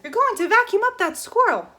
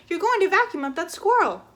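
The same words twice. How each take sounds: First: Much higher, louder alarm; full shout. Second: Higher, louder warning; shouting. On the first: Flora seeing the squirrel in danger, full shout. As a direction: scream it out. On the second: Flora warning the neighbor, shouting. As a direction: yell it through the glass. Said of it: "she shouted". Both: Acted.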